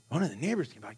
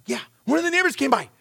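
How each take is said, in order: First: Quiet echo. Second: Quick confirmation. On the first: Dad repeats daughter's news. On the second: Daughter confirms the news. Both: Retold or imitated.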